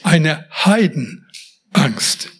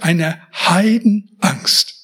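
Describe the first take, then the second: First: "Heidenangst" very slow and low, broken into HEIDEN, pause, ANGST; literal, split word. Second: "Heidenangst" slowed, with a short break inside; emphatic idiom. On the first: Preacher taking the word literally, very slow, split "Heiden - Angst". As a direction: pull "Heidenangst" apart into its two words, lingering on each. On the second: Preacher naming Jakob's fear, slow emphatic "Heidenangst". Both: Shown as a demonstration. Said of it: "Jetzt mal buchstäblich".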